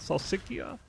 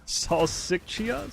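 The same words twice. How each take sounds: First: The middle consonant is a k sound. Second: The middle consonant is a ch sound.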